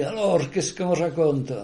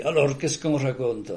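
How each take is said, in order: First: Slow, lightly voiced friendly greeting; a hint of old Serge asking the news; imitating Serge's greeting. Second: Said in the usual way. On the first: Teller echoes his friend's usual greeting, lightly voiced. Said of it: "il me disait". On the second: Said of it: "pour inverser le truc".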